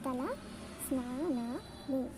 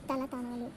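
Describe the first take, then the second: First: The sn cluster is pronounced fully. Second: The sn sound is reduced to a t. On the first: The speaker calls it right. "We have to use తల స్నానాలు" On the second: The speaker calls it wrong. "తలతానాలు is illiterate word"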